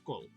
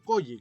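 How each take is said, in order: First: The name is said without Spanish double-L sound. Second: The name is said with Spanish double-L sound. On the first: The speaker calls it wrong. "Cole no, no está bien pronunciado" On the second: The speaker calls it right. "que se le llama normalmente en, en español"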